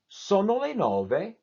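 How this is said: The pitch rises, falls, then ends high. It is a question. "you go up, you go down, and then you end on a high note"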